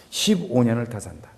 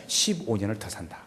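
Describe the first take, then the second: First: Said in the usual way. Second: Hushed and soft, almost unvoiced; whisper. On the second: Preacher softly voicing God's promise to the dying king, whisper. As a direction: breathe God's promise like a secret.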